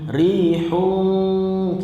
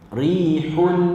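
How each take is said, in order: First: The final n is held with a nasal hum. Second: The final n is clear with no nasal hum. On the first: The speaker calls it wrong. "Dia tak bunyi rihun, kita nak dengung tak boleh" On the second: The speaker calls it right. "hun dia tetap jelas bunyi hun"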